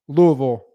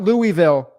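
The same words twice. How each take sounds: First: The name is said with the local pronunciation. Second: The name is said with an outsider pronunciation. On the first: The speaker calls it right. "That's how they say it there" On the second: The speaker calls it wrong. "not Louisville"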